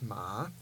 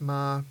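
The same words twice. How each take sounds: First: The pitch rises from low to high. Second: The pitch stays level in the middle. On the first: "the rising tone, is ma" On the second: "The mid tone is ma"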